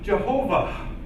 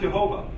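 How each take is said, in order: First: The word ends with an audible breathy h. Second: The word ends without any breathy h. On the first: The speaker calls it wrong. "this actual writing right here tells you to say this as Jehovah" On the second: The speaker calls it right. "not Jehovah"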